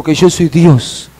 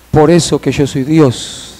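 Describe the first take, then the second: First: Firm retold divine pronouncement; fuller-voiced, solemn restatement; emphatic declaration. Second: Subdued, slow reply; a touch of weeping restraint; retold tearful sorrow. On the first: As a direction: declare it with weight and authority. Repeats God's answer with force. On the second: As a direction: say it gently, with understated grief. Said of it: "el Señor llorando".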